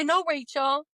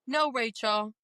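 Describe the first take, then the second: First: Higher and a bit louder, NO pushed up hard; firm no. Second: Said in the usual way. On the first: Shown as a demonstration. Telling the inner critic off, firm and raised. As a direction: put your foot down on No.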